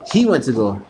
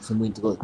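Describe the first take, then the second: First: "He" hit hard and louder; emphatic, louder "He" at the start; stress on He. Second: Said in the usual way. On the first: Real, not acted. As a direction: correct yourself by punching "He".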